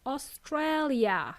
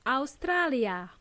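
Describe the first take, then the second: First: Australia as "o-STRAY-lia", very slow; Australia, drawn out slowly, middle ay; English pronunciation. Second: Australia as "ow-STRAH-lia"; Australia, pronounced as in Spanish or Serbian; Spanish/Serbian pronunciation. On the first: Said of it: "In English, it's". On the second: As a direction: say "Australia" with open ah vowels. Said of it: "we simply say Australia". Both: Shown as a demonstration.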